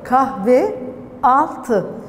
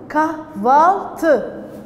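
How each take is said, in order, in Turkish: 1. İki kelime arasında iki ünlü de korunur. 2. İlk kelimenin son ünlüsü düşer. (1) "Kahve artı altı" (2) "dar ünlü düşmesi görülüyor"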